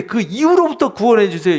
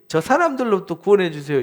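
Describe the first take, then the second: First: Emphatic, raised 이유로부터; stress on 이유로부터. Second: Said in the usual way. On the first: Shown as a demonstration. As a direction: lift and lean on 이유로부터 as the key word. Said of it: "이렇게 말해야지". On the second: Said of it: "이렇게 하지 말고".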